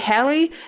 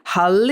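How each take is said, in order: First: The name is said in an American-sounding way. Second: The name is said in a Norwegian-sounding way. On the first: "it sounds like I'm being American" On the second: "that's how it would be if it was in... Because apparently it comes from Norwegian"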